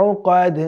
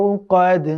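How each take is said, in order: Both takes have the same delivery.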